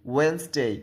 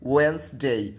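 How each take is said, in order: First: The first d sound is left out. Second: The same.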